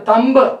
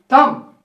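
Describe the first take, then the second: First: A b sound is pronounced after the m. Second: The word ends on the m, b silent. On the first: The speaker calls it wrong. "not a thumb" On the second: The speaker calls it right. "It should be thumb"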